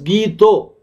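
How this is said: The word ends in a rounded 'oh' vowel. This is the regional Bengali form. "Gita becomes Gito"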